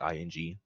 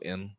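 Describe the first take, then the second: First: The ending is said with the final g sound. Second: The ending is said without the final g sound. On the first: "I don't say the G's at the ends with like what's like ing" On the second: "I just go in"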